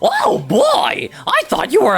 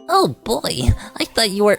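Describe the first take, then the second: First: It is said in a put-on character voice. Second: It is said in a plain, ordinary voice.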